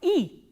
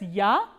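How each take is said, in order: First: The vowel is reduced to an 'e' sound. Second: The vowel is a full 'ya' sound. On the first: The speaker calls it right. "but e" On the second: The speaker calls it wrong. "not pronounced as ya"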